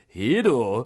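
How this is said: It is said with a Japanese accent. The speaker calls it right. "say hero with a Japanese accent"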